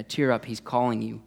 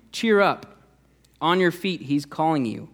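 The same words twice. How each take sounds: First: Calm, gentle encouragement; easy reassurance in an unraised voice; changed, kinder tone. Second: High, louder cheery call; upbeat call, pitched high. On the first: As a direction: say it evenly, as good news. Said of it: "somehow their tone changes". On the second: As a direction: call out encouragement to the blind man. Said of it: "they called to the blind man". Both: Retold or imitated.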